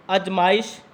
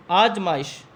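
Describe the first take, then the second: First: अजमाइश with a short first a; अजमाइश spoken as the mistaken form; wrong short a. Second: आजमाइश with a long first aa; आजमाइश spoken as the correct form. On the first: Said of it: "अजमाइश एक अशुद्ध रूप है". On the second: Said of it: "शुद्ध रूप में लिखेंगे". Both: Shown as a demonstration.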